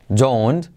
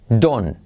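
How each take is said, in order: First: The word ends with an audible t sound. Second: The word ends without any t sound. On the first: "Vamos a decirlo primero por separado" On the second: "la T no se pronuncia"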